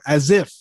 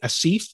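First: The S is said as a Z sound. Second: The I vowel is drawn out long. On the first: "Some people put a Z in there" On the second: "They make that I long"

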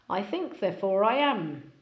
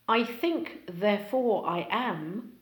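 First: The words run together with linking sounds. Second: Each word is said separately.

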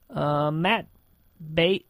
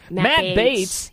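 First: The name is said hesitantly, without confidence. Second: The name is said confidently and familiarly. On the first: The speaker is unfamiliar with the person. The speaker calls it wrong. "don't say it like that" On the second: The speaker knows the person well. The speaker calls it right. "It's like you really know who he is"

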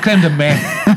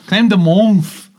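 First: The last word lacks the n, like methadone. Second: The last word has a clear n sound. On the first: The speaker calls it wrong. "That's methadone" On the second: The speaker calls it right. "There's an N in there"

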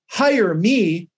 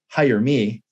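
First: The voice is raised clearly on these words. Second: The voice is raised only slightly on these words. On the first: "Notice on hire me, I raised my voice" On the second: "I just raised my voice just a tad"

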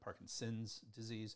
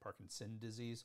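First: Parkinson is said with a final s sound. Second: Parkinson is said without a final s sound. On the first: This is the older name. The speaker calls it wrong. "Parkinson's is the way it was said" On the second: This is the current preferred name. The speaker calls it right. "it's now more proper to say"

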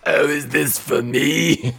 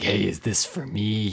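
First: It is said in a Missus Big Head voice. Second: It is said in a gruff voice.

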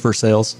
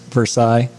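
First: It is said the local Kentucky way. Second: It is said the way outsiders say it. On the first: This is how residents say the town's name. "For those of us local, it's Versailles" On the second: This is how visitors say the town's name. "Out-of-towners, Versailles"

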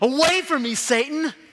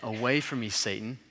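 First: It is said in a forceful, commanding way. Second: It is said in a mild, gentle way. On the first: The speaker calls it right. "he's like, just get out of here" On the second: The speaker calls it wrong. "actually, he doesn't say it like that"

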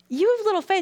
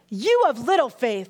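First: It is said in a laughing, playful tone. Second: It is said in a scolding, harsh tone.

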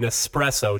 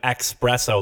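First: The word begins with an 'es' sound. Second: The word begins with an 'ex' sound. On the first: The speaker calls it right. "I like how you called it an espresso" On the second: The speaker calls it wrong. "and not an expresso, like a fucking idiot"

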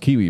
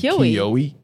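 First: The name sounds like the word kiwi. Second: The name is said the way it is spelled. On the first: This is how locals say it. The speaker calls it right. "It's pronounced Kiwi" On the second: This is the outsiders' way of saying it. The speaker calls it wrong. "we pronounce it phonetically"

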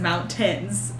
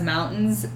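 First: The T sound is clearly and crisply pronounced. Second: The T sound is swallowed, not clearly pronounced. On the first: This is how she sings it in the re-recording. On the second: This is how she sang it originally.

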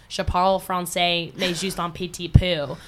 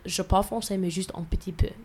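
First: It is said with an American English accent. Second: It is said with a native French accent. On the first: The speaker calls it wrong. "which would be me speaking French with an American accent" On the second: The speaker calls it right. "which is like with proper pronunciation"

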